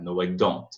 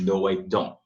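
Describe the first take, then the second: First: The final t of don't is clearly pronounced. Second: The final t of don't is swallowed. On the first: "ou pode pronunciar" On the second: "pode muito bem engolir também"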